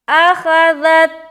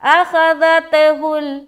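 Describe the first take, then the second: First: The final t stops abruptly with no release. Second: The final t bounces with an audible echo. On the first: The speaker calls it right. "ये सही है।" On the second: The speaker calls it wrong. "तो गलत है, सरासर गलत है।"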